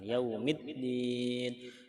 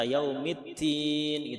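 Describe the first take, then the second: First: The doubled consonant sounds like a d. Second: The doubled consonant sounds like a t. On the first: It means religion. The speaker calls it right. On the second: It would mean fig instead of religion. The speaker calls it wrong. "jangan sampai seperti ta. Yaumiddin gitu. Salah"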